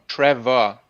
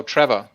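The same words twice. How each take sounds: First: "Trevor" stretched into two clear syllables, louder; sounded-out name. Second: A firm, louder "Trevor"; corrected name. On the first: Host repeats the corrected name, stretching "Trevor" out. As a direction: sound out "Tre-vor" deliberately. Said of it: "No, Trevor". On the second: Host bad at names corrects himself, saying "Trevor" firmly. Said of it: "I'm bad at ma-, names. No, Trevor". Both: Shown as a demonstration.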